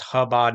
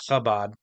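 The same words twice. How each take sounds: First: It starts with a plain, smooth h sound. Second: It starts with a raspy, guttural throat sound. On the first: The speaker calls it right. "if it was supposed to be pronounced Chabad" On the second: The speaker calls it wrong. "not Chabad"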